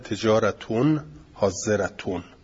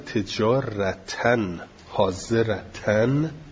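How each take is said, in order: First: Both words end with an -un sound. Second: Both words end with an -an sound. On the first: The words are read in the nominative case. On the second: The words are read in the accusative case.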